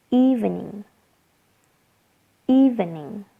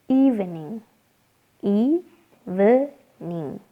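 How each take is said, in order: Both takes have the same delivery.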